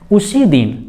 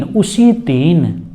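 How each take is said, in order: First: Said in the usual way. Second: उसी drawn out slowly and stressed; slow emphasis. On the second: Shown as a demonstration. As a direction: stretch उसी दिन to stress it. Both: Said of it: "जोर देकर बोलना है कि भाई उसी दिन".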